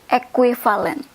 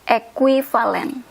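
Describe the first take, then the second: The two takes are said the same way.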